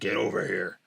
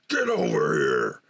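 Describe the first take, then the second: First: It is said flatly, without energy. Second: It is said intensely, with energy.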